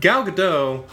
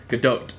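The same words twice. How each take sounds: First: "Gadot" ending on an open "doh", no T; silent T. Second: "Gadot" ending in an audible T, "guh-DOHT"; sounded final T. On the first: Podcaster trying a star's name, "Gadot" with silent T. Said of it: "how to pronounce her name". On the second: Podcaster copying how the star says it, "Gadot" with final T. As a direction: land the T at the end of "Gadot". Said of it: "with the T at the end". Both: Shown as a demonstration.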